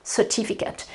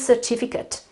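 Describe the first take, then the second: First: The ending is a weak, short 'ut' sound. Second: The same.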